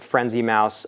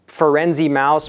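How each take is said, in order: First: The first word has two syllables, like 'frenzy'. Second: The first word has three syllables, starting 'fur'. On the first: This is how people would usually say the name. "you'd probably pronounce it Frenzy mouse" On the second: This follows the way the name is written. "it's Ferenzi mouse"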